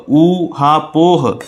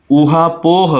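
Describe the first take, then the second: First: ऊहापोह drawn out very slowly as ऊ, हा, पोह; syllable by syllable. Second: Said in the usual way. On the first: Shown as a demonstration. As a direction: break ऊहापोह into long separate parts. Teacher breaks word into syllables.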